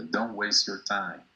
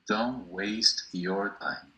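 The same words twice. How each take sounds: First: Said in the usual way. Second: Don't waste your time spoken very slowly, word by word; slow model phrase. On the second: Shown as a demonstration. Teacher slowing down Don't waste your time for students.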